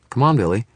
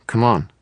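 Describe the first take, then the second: First: Put-on high, loud young girl; a girl hurrying her brother. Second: Put-on high, loud girl urging; young girl voice. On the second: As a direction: hurry the little brother along. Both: A narrator's reading. Girl pulls brother away.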